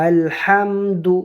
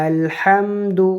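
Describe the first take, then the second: Both takes have the same delivery.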